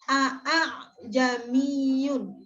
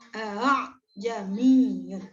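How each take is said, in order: First: The opening vowel is doubled and drawn out. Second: The opening vowel is smooth and short. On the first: The speaker calls it wrong. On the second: The speaker calls it right. "tanpa mat, tanpa panjang"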